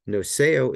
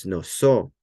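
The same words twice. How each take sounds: First: "noseo" with the epsilon sounded before the final o; uncontracted pronunciation. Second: "noso" with the epsilon dropped, ending in one long o; contracted pronunciation. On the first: Teacher giving the lexicon form, "noseo" with both vowels sounded. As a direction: say "noseo" keeping "e" and "o" as separate vowels. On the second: Teacher showing the omega eating the epsilon, "noso" with one final vowel. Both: Shown as a demonstration. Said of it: "the epsilon disappears and gets eaten".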